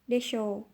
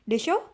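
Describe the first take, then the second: First: The pitch falls at the end of the word. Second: The pitch rises at the end of the word. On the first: The speaker is making a fairly confident guess. "intonasinya tuh ke bawah" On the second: The speaker asks the listener to confirm something. "yang nadanya ke atas"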